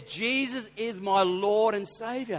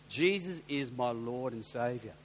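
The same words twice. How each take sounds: First: Slow, emphatic, hint of a German accent; imitated German accent. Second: Slow, low, hint of a German accent; imitated German accent. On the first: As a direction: quote a German man slowly and firmly. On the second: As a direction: quote a German man slowly and solemnly. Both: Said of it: "thick German accent".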